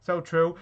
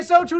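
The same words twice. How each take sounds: First: Said in the usual way. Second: Mocking shout. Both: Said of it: "You just say "so true".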